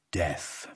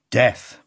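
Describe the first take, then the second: First: Death said soft, low and falling; hushed. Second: Said in the usual way. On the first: A narrator's reading. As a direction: let "Death." drop to a hush. Refrain end, hushed.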